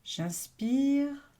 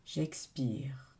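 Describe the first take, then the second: First: Meditative inhale cue, lifted; breathing-in cue. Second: Low, whispery release on the out-breath; meditative exhale cue, dropped and hushed. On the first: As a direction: voice lifts and swells on the in-breath. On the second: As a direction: let the voice sink away like an exhale. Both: Real, not acted.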